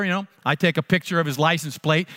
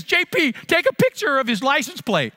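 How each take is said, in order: First: Said in the usual way. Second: Higher, urgent mother-in-law giving an order; a hint of an urgent older woman's voice; mother-in-law's command. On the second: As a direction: hurry the son-in-law along. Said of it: "she turns to me and says".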